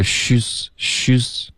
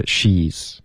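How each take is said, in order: First: Slow "she's" with the ee sound missing; mispronounced vowel. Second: "she's" with a full, clear ee; corrected ee vowel. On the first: Teacher imitating a student's error, mispronounced vowel. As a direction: say "she's" with a dulled, rounded vowel like shüs. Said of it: "一的音没听见". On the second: Teacher modelling the correction for a student, full ee vowel. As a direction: spread the vowel in "she's" into a clean long ee. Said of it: "应该是". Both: Shown as a demonstration.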